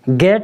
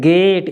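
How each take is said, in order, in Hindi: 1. स्वर छोटा और झटके से बोला गया है। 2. स्वर लंबा और खिंचा हुआ बोला गया है। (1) "गेट नहीं पढ़ रहे" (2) "यानी लंबी"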